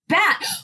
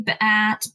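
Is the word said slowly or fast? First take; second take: fast; slowly. First: The word is said fast. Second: The word is said slowly.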